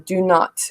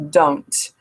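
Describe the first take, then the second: First: It is said as two full words. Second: It is said as one short contracted word.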